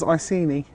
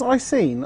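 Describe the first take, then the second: First: The name rhymes with beanie. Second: The name does not rhyme with beanie. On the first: "it kind of rhymes with beanie" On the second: "Do you see it as Icene?"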